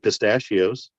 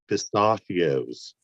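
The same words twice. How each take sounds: First: The vowels sound plain and American. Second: The vowels are changed to sound British. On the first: This is how she said it before. "she used to say" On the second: This is how she said it later. "turned fucking part British... change the vowels a little bit"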